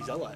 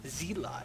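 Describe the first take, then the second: First: The first syllable is said as 'zel'. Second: The first syllable is said as 'zee'. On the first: The speaker calls it right. "I now say Zealot" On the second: The speaker calls it wrong. "such a bad habit of mine"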